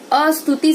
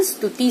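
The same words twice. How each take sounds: First: अस्तुति said with an extra a before st; wrong added vowel. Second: स्तुति begins straight on the st with no vowel; correct cluster. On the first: Teacher showing students the wrong pronunciation, "astuti". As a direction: start अस्तुति with a clear "a" before the st. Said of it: "लेकिन ये गलत है". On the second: Teacher giving students the correct form, "stuti". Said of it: "लेकिन भगवान स्तुति". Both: Shown as a demonstration.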